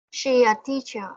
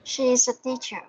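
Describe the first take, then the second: First: "She a teacher" with no S after "She"; dropped S. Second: "She's" with the S sounded into "a teacher"; audible final S. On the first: Real, not acted. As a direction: leave the ending off "She's", going straight to "a teacher". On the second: Shown as a demonstration. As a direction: put the S back on "She's". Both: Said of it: "Don't forget the S out here".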